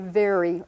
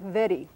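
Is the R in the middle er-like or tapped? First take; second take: er-like; tapped. First: The middle R is a smooth er-like sound. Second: The middle R is a quick tapped sound. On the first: "We say very, er, in the middle" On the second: "A British person, or a lot of British people, will say something more like very. And that r, that little flapped R in the middle"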